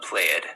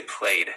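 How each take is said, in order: First: "played" dragged as play-ed with a drawn vowel; the wrong "played" stretched out. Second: "played" as one syllable, plain d ending; correct played. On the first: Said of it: "not played". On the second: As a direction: say "played" as playd. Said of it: "we say played". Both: Shown as a demonstration.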